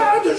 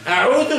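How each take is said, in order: First: The middle consonant is a plain 'd' sound. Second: The middle consonant is a soft 'th' sound. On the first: I return. The speaker calls it wrong. "je reviens" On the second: I seek protection. The speaker calls it right. "je me protège"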